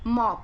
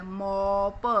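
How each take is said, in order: First: Said in the usual way. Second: मॉप split slowly into a long "mo" and separate "puh"; sounded out. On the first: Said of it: "पोछे को मॉप कहते हैं". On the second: Shown as a demonstration. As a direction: stretch the vowel in मॉप, then release प alone. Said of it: "उसके बाद किसकी आवाज आ रही है".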